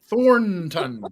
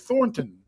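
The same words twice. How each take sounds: First: The middle N is strongly over-enunciated. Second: The middle N is silent. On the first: "do you over enunciate the N?" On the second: "or is it kind of like a silent letter"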